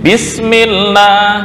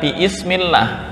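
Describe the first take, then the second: First: The syllables run together without a separate 'i' sound. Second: A separate 'i' sound is said before 'smillah'. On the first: The speaker calls it right. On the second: The speaker calls it wrong.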